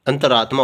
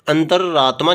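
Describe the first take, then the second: First: अंतरात्मा with one short r; single r. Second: अंतरात्मा with a long, held double r; doubled r. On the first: Teacher giving the correct form, अंतरात्मा with single r. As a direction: say अंतरात्मा as "anta-raatmaa". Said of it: "होता है". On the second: Teacher showing the faulty form, अंतरात्मा with doubled r. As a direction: say अंतरात्मा as "antar-raatmaa". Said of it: "दो रे नहीं आते इसमें". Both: Shown as a demonstration.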